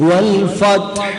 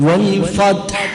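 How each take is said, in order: The two takes are said the same way.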